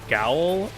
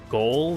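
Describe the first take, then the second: First: The vowel sounds like the one in 'owl'. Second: The vowel sounds like the one in 'goal'. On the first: The speaker calls it right. "It's pronounced uh, gowl" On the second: The speaker calls it wrong. "not goal"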